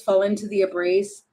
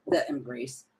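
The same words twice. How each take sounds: First: Said in the usual way. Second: A soft, breathy whispered echo. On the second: Real, not acted. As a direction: whisper the words embrace to yourself. Repeats phrase, then whispers it.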